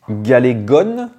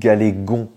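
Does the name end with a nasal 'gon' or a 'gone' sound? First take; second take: gone; gon. First: The name ends with a pronounced final n. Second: The name ends with a nasal vowel like dragon. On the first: The speaker calls it wrong. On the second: The speaker calls it right.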